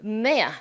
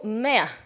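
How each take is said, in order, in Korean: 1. 영국식 발음입니다. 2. 영국식 발음입니다.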